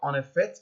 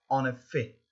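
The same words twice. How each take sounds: First: The final T is sounded. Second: The final T is silent. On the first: The speaker calls it wrong. "c'est pas en effet" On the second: The speaker calls it right. "Ici on ne doit pas prononcer le T final"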